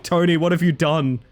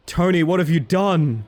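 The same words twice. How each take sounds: First: Said in the usual way. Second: Drawn-out, louder mock horror at Tony; hammed-up dismay. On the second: Streamer mock-scolds Tony over his map, hammed-up dismay. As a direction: ham up the betrayal, stretching each word.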